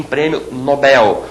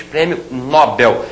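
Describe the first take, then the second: First: "Nobel" slowly as no-BEL; stress on last syllable. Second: "Nobel" as NÓ-bel, stressed at the start; mistaken stress. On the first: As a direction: lean on the BEL in "prêmio Nobel". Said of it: "e sim". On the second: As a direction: hit the NO in "prêmio Nobel". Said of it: "não se diz". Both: Shown as a demonstration.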